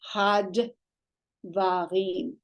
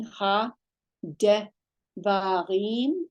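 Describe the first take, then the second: First: "had" as one closed syllable, then "va, rim"; shva closing syllable. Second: "Ha, de" as two separate syllables, then "va, rim"; shva separated. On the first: Teacher offering an alternative reading, "had" joined as one syllable. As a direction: run "ha" and "d" together as "had", pause, "va, rim". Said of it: "that would be one syllable here". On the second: Teacher reading the transliteration, "Ha, de" split into two syllables. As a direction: break it as "Ha", pause, "de", pause, "va, rim". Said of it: "it was separated into two syllables". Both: Shown as a demonstration.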